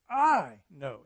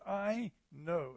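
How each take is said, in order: First: "I" punched hard and loud, "know" light; stress on I. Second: Said in the usual way. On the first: Shown as a demonstration. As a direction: hit the word "I", not "know". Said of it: "It's an emphasis on the I". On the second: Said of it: "It's not the emphasis on the know".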